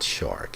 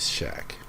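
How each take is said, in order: First: The name is said with an r sound. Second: The name is said without an r sound. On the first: The speaker calls it wrong. "his name is not Shark" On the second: The speaker calls it right. "it is Shaq"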